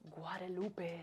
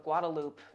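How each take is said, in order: First: The name is said in a standard pronunciation. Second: The name is said in a local Texan pronunciation.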